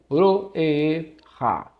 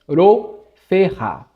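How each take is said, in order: First: The f sound is so quick it nearly disappears. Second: The f sound is clearly pronounced. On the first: "esse pei aqui, o é bem, bem, bem rápido" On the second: "Eu tenho que pronunciar o, o F aqui"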